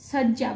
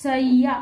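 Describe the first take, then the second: First: শয্যা as "shojja", a j sound; Bengali pronunciation. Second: শয্যা as "shay-ya", y sounded in place of j; Sanskrit pronunciation. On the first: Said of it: "বাংলায় যেটাকে আমরা বলি". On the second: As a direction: say শয্যা with a clear double y. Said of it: "সংস্কৃতে সেটা হবে". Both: Shown as a demonstration.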